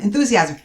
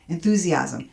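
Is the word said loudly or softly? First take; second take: loudly; softly. First: The word is said at a higher volume. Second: The word is said at a lower volume. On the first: "each time you say it, raise your vol- volume" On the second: "each time you say it, raise your vol- volume"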